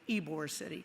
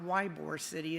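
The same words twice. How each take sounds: First: Ybor starts with an 'ee' sound. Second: Ybor starts with an 'eye' sound. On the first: The speaker calls it right. "it's Ybor City" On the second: The speaker calls it wrong. "It's not Ybor City"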